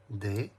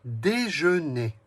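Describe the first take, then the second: First: "Dé-je-né" in three separate syllables with long pauses. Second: Said in the usual way. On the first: Shown as a demonstration. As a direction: count out "Dé-je-né" beat by beat. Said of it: "Trois syllabes". (« Dé-je-né » découpé en trois syllabes bien séparées) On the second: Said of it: "compte les syllabes".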